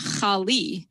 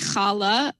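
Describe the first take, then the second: First: The word ends with an 'ee' vowel. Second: The word ends with an 'ah' vowel. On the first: "we have either a or e" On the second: "we have either a or e"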